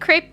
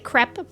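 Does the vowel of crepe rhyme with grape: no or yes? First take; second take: yes; no. First: The vowel rhymes with the word grape. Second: The vowel does not rhyme with grape. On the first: The speaker calls it right. "Saying crepe to rhyme with grape" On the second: The speaker calls it wrong. "people who say crepe"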